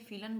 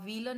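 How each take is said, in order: First: The word begins with an F sound. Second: The word begins with a W sound. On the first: The speaker calls it right. "फीलन बोलेंगे" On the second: The speaker calls it wrong. "व्हीलन नहीं बोलेंगे"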